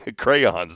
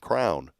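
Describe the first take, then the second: First: It is two syllables, 'cray-ons', standard style. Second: It is one syllable, like 'crown', Georgetown style.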